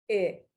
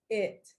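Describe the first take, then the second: First: The final T is stopped without release. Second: The final T is fully released with air. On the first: "Stop T" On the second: "True T"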